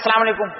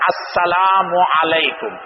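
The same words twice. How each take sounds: First: The greeting is pronounced in a clipped, reduced form. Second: Every syllable of the greeting is pronounced fully. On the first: "इसका मुखफ़्फ़फ़ जो लोग कर देते हैं" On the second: "ये है अस्सलाम वालेकुम"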